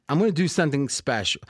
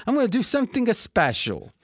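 First: Said in the usual way. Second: Put-on high, sing-song Italian accent. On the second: Host repeats his promise of a special, Italian accent. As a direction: lift it into a playful Italian accent. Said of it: "went into an Italian accent".

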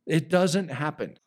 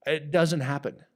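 First: Slow, stress on "doesn't" with a falling end; slower emphatic repeat. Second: Said in the usual way. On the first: Shown as a demonstration. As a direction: drive the point home by repeating it slowly.

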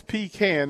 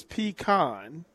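First: "pecan" as PEE-can, vowel of "cat"; pronunciation PEE-can. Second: "pecan" as a slow, separated PEE-kahn; pronunciation PEE-kahn. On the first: Shown as a demonstration. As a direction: say "pecan" ending like tin can. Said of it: "That's something, in". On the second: Retold or imitated. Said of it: "Matt says".

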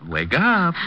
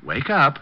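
First: Insistent rousing call. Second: A measured call to rouse him; first rousing call. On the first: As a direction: Wake up, pitched high and stretched. Rousing him a second time. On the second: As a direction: Wake up, raised a little in pitch. Rousing a knocked-out man. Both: Acted.

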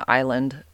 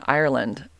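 First: Island said with no R; "island", no R sound in it; misheard word. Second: Ireland said with its R; "Ireland" with the R sounded before "-land"; Irish pronunciation mix-up. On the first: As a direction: say "island" with the first vowel running straight into "-land". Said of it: "I thought she was saying island". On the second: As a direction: say "Ireland" with an R after the first vowel. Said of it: "She was saying Ireland". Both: Shown as a demonstration.

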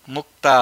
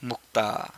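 First: Said in the usual way. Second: Quiet, falling murmur of the name; hushed repeat of a newly learned name; soft murmur. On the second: Acted. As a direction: savour the name to yourself softly. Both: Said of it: "नाव कळलं".

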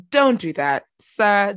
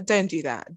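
First: Mock firm warning. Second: Said in the usual way.

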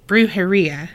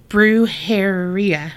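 First: Brujeria said again at normal speed; quick repeat. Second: Brujeria said slowly, syllable by syllable; careful Spanish pronunciation. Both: Shown as a demonstration. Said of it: "and I still fucked it up".

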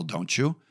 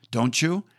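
First: Said in the usual way. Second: Don't you pitched up, teasing rise on you; playful higher repeat. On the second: Shown as a demonstration. Host teasing listeners, repeating the question higher. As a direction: tease it again, higher and coaxing.

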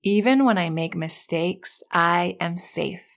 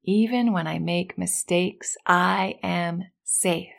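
First: Slow, deliberate affirmation to repeat. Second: Even slower, stretched-out affirmation. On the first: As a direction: say it slowly so they can echo. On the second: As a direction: draw each word out for the echo. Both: Shown as a demonstration. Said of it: "repeat after me".

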